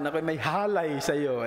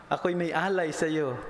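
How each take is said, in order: First: Alay pronounced halay, with an initial h; halay, Kapampangan-style added h. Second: Said in the usual way. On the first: Shown as a demonstration. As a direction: say the sentence with an H stuck onto alay: halay. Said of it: "pag sinabi ng Kapampangan". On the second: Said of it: "Tapos pag sinabi ng Kapampangan".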